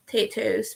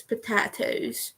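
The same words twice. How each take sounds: First: "Potatoes" said as "po-TAY-toes"; "Potatoes" with a long A, as in day. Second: "potatoes" said slowly as "po-TAH-toes"; slow, soft "potatoes" with an AH in the middle. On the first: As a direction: say "Potatoes" with an AY in the middle. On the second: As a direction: say "potatoes" with an open A, drawn out. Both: Shown as a demonstration. Contrasts two pronunciations of potato.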